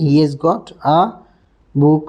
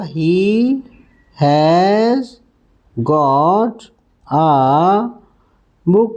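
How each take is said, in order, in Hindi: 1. He और has मिलकर hees की तरह बोले जाते हैं। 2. शब्द has पूरा बोला जाता है।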